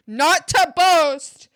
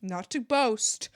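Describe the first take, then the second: First: "not to boast" drawn out, louder and higher; mock-boastful emphasis. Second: Said in the usual way. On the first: Shown as a demonstration. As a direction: hit "not to boast" hard and slow, showing off. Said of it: "not to boast (repeated)". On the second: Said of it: "not to boast (repeated louder)".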